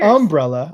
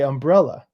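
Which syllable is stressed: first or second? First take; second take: first; second. First: The stress is on the first syllable. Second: The stress is on the second syllable. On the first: This is how a Southern speaker says it. "Southern people really emphasize that first syllable" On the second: This is how a non-Southern speaker says it. "I say umbrella"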